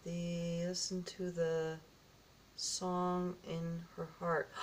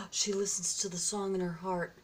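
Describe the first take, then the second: First: Slow, soft, word-by-word reading; halting reading. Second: Said in the usual way. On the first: Real, not acted. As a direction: puzzle out the writing quietly, stretching each word. Works out small writing.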